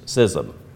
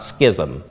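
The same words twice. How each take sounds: First: The word begins with the sound of scissors. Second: The word begins unlike the sound of scissors. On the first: The speaker calls it right. "it is pronounced like scissors" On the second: The speaker calls it wrong. "not schism"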